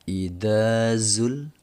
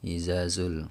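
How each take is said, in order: First: The consonant after the first vowel is 'dh'. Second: The consonant after the first vowel is 'z'. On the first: The speaker calls it right. "beda ya antara da dengan za" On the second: The speaker calls it wrong. "Biasanya orang kalau ngajiin surah ini disapu rata ini kan"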